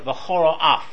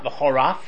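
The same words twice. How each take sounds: First: The word is said carefully with each sound clear. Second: The word is said quickly with sounds blurred together.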